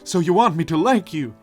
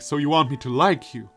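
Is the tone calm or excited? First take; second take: excited; calm. First: It is said in an excited way. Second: It is said in a calm, flat way.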